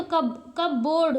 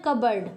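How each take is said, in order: First: कब बोर्ड as two separate words; full "board" in कब बोर्ड; read as spelt. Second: कबर्ड as one word, short second vowel; silent P. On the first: Teacher showing a literal misreading, कब बोर्ड in two parts. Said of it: "ऐसे अगर पढ़ें तो". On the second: Teacher giving learners the correct word, कबर्ड with silent P. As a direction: say कबर्ड with no P, falling pitch. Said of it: "लेकिन हम इसको क्या बोलते हैं". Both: Shown as a demonstration.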